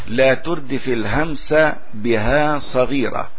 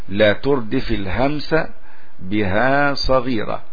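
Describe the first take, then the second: The two takes are said the same way.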